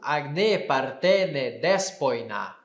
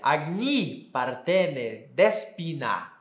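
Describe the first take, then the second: First: Ends in 'e' and 'oi' vowel sounds. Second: Ends in 'i' and 'i' vowel sounds. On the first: This is the classical Greek pronunciation. "grego clássico" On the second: This is the later Koine pronunciation. "grego uh, koiné"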